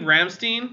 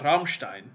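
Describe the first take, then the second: First: The name has an American-style pronunciation. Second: The name has a German-style pronunciation. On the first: The speaker calls it wrong. "it is if you're an American" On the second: The speaker calls it right. "that's not how it's pronounced"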